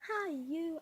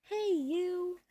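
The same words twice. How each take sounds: First: "hi, you" higher, first syllable like "high"; pronounced high-you. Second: "Hey, you" high and loud, like calling someone; pronounced hey-you. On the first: Showing the name's other version, "hi, you" pronounced high-you. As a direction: pitch "hi, you" up, as a greeting. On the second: Explaining why they chose the name, "Hey, you" called out. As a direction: call out "Hey, you" with a clear "hey". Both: Shown as a demonstration. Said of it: "because it's easier to say".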